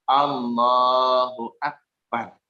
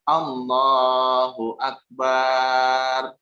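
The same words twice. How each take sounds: First: The bar vowel is kept short. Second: The bar vowel is drawn out long. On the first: The speaker calls it right. "yang betul adalah" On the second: The speaker calls it wrong. "Yang salah adalah"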